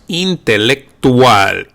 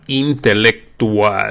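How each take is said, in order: First: It is said with Spanish sounds. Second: It is said with Spanish sounds.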